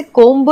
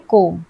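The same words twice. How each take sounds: First: कोम्ब with the final b sounded; wrong pronunciation. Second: कोम्ब ending on m, b silent; correct pronunciation. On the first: Teacher showing learners what not to say, mispronounced with audible b. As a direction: voice the silent b at the end of कोम्ब. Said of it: "हम इसे कोम्ब नहीं बोलते हैं". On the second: Teacher showing how we read the word, correct with silent b. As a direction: drop the b at the end of कोम्ब. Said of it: "हम इसे पढ़ते हैं कोम्ब". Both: Shown as a demonstration.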